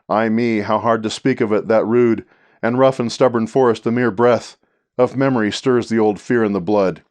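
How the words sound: It stops at the end of every line.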